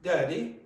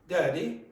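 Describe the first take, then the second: First: It is said with a Cork accent. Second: The same.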